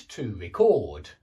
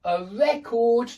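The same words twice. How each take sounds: First: Record stressed on the second syllable, low, slow; verb stress. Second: Record stressed on the first syllable, high, slow; noun stress. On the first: Teacher drilling nouns against verbs, second-syllable stress on record. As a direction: land on CORD in record. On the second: Teacher drilling nouns against verbs, first-syllable stress on record. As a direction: punch REC in record. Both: Shown as a demonstration. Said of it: "hear me changing the position of the stress".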